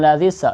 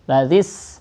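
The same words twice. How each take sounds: First: The final consonant is released with a bounce. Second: The final consonant is held smoothly without bounce. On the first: The speaker calls it wrong. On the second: The speaker calls it right.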